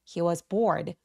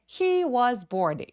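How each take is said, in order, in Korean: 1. 'He was'는 약하고 빠르게 발음합니다. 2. 'He was'는 강하고 또렷하게 발음합니다. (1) "힘을 쫙 빼서 He was bored 라고 해주셔야 되는데" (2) "이렇게 너무 과도하게 소리 나지 않도록 합니다"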